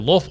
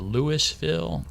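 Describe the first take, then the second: First: It is said the way city natives say it. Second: It is said the rural country way. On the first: The speaker is from the city itself. "those of us who are native there" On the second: The speaker is from the far countryside. "that means they're a real hick"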